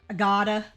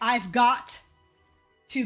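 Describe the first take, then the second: First: The words are partly run together. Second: Every word is said fully and separately. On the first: "I gotta. Not even I gotta" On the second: "instead of saying"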